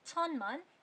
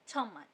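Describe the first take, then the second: First: It is said slowly with an n sound. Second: It is said at normal speed with an m sound. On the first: "धीरे धीरे पढ़ेंगे तो पढ़ेंगे छन्मान" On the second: "normal pace पे पढ़ेंगे तो पढ़ेंगे छम्मान"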